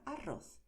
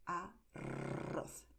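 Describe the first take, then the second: First: Said in the usual way. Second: Arroz very slow with a long exaggerated trill; exaggerated rolled R. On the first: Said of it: "De manera natural". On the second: Shown as a demonstration. Teacher exaggerating the R for learners, rolled. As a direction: drag out the rr in arroz. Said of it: "Estoy exagerando".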